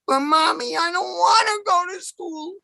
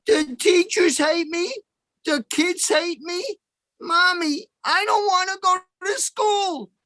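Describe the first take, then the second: First: Put-on high, whining child voice; pitched-up childish whine; whiny kid. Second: Put-on whiny kid. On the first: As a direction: beg mommy like a sulky little boy. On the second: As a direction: drag it out like a sulking little boy pleading. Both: Whining kid begging his mother.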